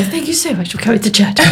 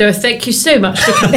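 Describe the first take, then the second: First: Quick, laughing posh voice. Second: Laughing posh voice. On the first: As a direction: rattle off the posh thank-you. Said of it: "I put the posh voice on". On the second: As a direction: put on a posh voice, giggling. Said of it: "I put the posh voice on and said". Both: Retold or imitated.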